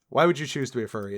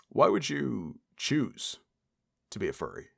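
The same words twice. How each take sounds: First: It is said in his normal voice. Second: It is said in a Don Draper impression.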